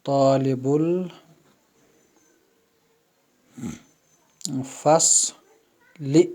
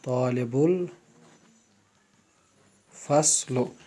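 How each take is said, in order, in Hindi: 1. आख़िरी शब्द 'i' स्वर पर ख़त्म होता है। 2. आख़िरी शब्द 'u' स्वर पर ख़त्म होता है। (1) "ज़ेर के साथ" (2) "अल फस्ल जो है इस पर पेश है ... ये गलत है"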